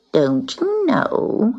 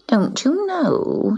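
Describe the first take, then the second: First: Slow, high scornful drawl; sneering. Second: Slow, high scornful drawl. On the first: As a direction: draw it out with a sneer. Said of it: "she sneered". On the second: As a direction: stretch it out with scorn. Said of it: "she said scornfully". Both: Acted.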